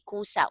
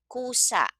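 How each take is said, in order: First: Said in the usual way. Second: Kusa said higher, with the final a cut short; malumi accent shown. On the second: Shown as a demonstration. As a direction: say Kusa crisply, stopping hard on the last a. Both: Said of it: "I put the N G here because I want to say kusang".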